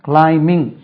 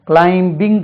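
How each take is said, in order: First: The b sound is left silent in the word. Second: The b sound is pronounced in the word. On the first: The speaker calls it right. "பி உச்சரிக்கக்கூடாது" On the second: The speaker calls it wrong. "climbing கிடையாது, இது bing கிடையாது"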